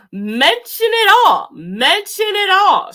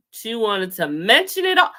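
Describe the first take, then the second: First: "Mention it all" pitched high and louder; emphatic repeat. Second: Said in the usual way. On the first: Shown as a demonstration. Vlogger repeating for emphasis, higher and louder. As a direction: hammer home "Mention it all".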